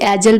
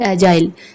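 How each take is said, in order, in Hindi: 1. आखिरी अक्षर छोटा और हल्का 'ul' है। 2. आखिरी अक्षर 'aisle' से तुक मिलाता है। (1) "इसे एजल भी प्रोनाउंस कर सकते हैं" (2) "या फिर एजाइल"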